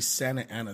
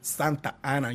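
First: The name is said with an American accent. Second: The name is said with a Spanish accent.

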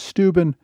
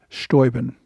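First: The name is said the modern way. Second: The name is said the eighteenth-century way. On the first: "the modern pronunciation is Steuben" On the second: "in the 18th century, his name was pronounced Steuben"

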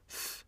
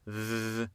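First: The th is breathy with strong airflow, no buzz. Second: The th buzzes with vibration and little airflow. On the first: "Ça, je souffle beaucoup" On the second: "ça vibre. Je souffle pas trop"

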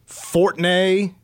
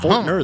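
First: The name ends in a French-sounding 'nay'. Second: The name ends in a plain English 'ner'. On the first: The speaker calls it wrong. "maybe they were just assuming because there are a lot of Fortners in France" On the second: The speaker calls it right. "Fortner, the way it looks"

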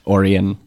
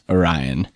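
First: It is pronounced unlike the constellation's name. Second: It is pronounced like the constellation's name. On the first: The speaker calls it wrong. "not Orion" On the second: The speaker calls it right. "in fact, Orion, like the constellation, like the Greek myth"

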